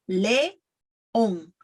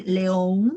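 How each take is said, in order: First: "León" slowly split into "le" and "on"; correct vowels. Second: "León" as the learner's mistake, vowels run together; mispronounced vowels. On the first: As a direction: give "León" a clean E, then a separate O. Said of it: "remember E, and it's León". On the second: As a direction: slur the vowels of "León" into each other. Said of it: "Don't say León". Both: Shown as a demonstration.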